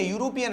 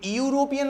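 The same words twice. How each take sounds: First: Said in the usual way. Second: यूरोपियन mispronounced with an "ee" before the "yoo", higher; wrong pronunciation. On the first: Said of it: "ये यूरोपियन नहीं है". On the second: Shown as a demonstration. Teacher rejects this reading, यूरोपियन with a stretched "ee" onset, pitched high. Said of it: "यूरोपियन है".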